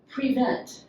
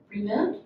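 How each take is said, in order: First: Prevent. said firmly with a falling tune; clear falling statement. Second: Prevent? asked with a rising, puzzled tune; puzzled question. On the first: Shown as a demonstration. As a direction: state prevent. plainly, explaining it. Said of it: "as in". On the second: Retold or imitated. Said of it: "people say to me".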